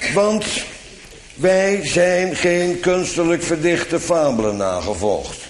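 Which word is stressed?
none. No word carries special stress. A neutral statement of fact. "En zo lees ik het zonder klemtoon voor"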